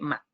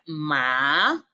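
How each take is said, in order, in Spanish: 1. La sílaba es corta y no tiene movimiento. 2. El tono baja hasta abajo y luego sube. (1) "Es sin movimiento, es seco" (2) "suave y baja y da como un salto"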